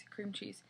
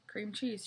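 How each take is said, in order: First: Cream cheese in a flat, softer, lifeless tone. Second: Said in the usual way. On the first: A narrator's reading. Enchanted Sharon repeating herself, flat lifeless voice. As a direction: say cream cheese with the life drained out. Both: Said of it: "she says in a flat voice".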